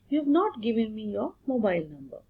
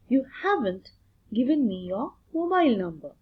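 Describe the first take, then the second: First: The words have not are said in full. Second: The words have not are contracted to haven't. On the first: This is the written form. "what is there for written English" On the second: This is the spoken form. "we'll proceed with the spoken English"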